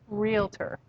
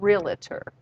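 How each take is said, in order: First: The word is said with two syllables. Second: The word is said with an extra syllable. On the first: The speaker calls it right. "That's two syllables" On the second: The speaker calls it wrong. "It's not realtor"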